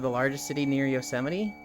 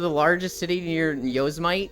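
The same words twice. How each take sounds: First: Yosemite is said with its usual pronunciation. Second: Yosemite is said with an odd, unusual pronunciation.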